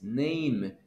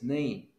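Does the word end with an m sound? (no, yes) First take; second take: yes; no. First: The word ends with an m sound. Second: The word ends without an m sound. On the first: The speaker calls it right. "la M es M" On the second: The speaker calls it wrong. "no es nay"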